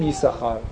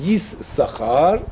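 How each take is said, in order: First: یساخار with a single s; plain reading of یساخار; one s sound. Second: Slow یس ساخار with both s sounds split; spelled-out یس ساخار, double s; two s sounds. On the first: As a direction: say یساخار run together. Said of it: "ولی میخونیم یساخار". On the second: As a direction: say یس ساخار carefully, pausing after یس. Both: Shown as a demonstration.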